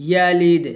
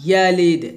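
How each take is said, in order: Both takes have the same delivery.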